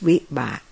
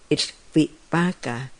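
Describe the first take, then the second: First: The final syllable is dropped. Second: The final syllable is fully pronounced. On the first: This is the Thai pronunciation. "in Thai, we don't use the pa, but we use the ba. So we use vipak" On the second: This is the Pali pronunciation. "So in Pali, it's vipaka"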